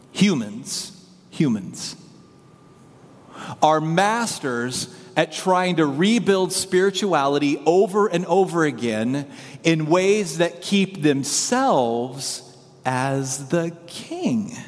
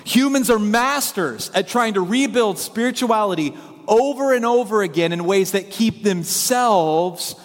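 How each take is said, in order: First: Slow, measured statement with long pauses; deliberate delivery. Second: Higher, more forceful preaching delivery; emphatic restatement. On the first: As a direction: spell out the big idea slowly. States main idea, then repeats it. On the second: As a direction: drive the main point home. Repeats main idea with more force. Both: Real, not acted.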